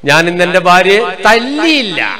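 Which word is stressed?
തല്ലിയില്ല. The last word, തല്ലിയില്ല, is stressed. She was dealt a blow in another way. "അർത്ഥം എന്നാ കൊടുത്തു"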